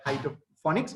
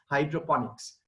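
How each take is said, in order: First: "hydroponics" said as hydro-phonics; "hydroponics" as hydro-FON-iks; mispronounced hydroponics. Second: "hydroponics" with a clear p, hydro-PON-iks; "hydroponics" as HY-dro-PON-iks; correctly pronounced hydroponics. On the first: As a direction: demonstrate the common slip, an f in place of the p in "hydroponics". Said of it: "Many people pronounce it as hydroponics". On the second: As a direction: say "hydroponics" as hydro-ponics, with p rather than f. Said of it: "but it's hydroponics". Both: Shown as a demonstration.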